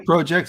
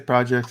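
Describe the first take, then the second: First: It is said the Canadian way. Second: It is said the American way. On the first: This is how the Canadian host says it. "you say projects" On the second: This is how the speaker himself says it. "I say projects"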